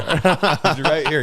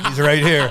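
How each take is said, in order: First: Very slow, drawn out through laughter; laughing repeat. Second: Said in the usual way. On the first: Real, not acted. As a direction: stretch it out while cracking up. Repeated teasing.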